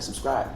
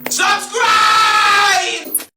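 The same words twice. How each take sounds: First: It is said at normal volume. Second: It is yelled loudly.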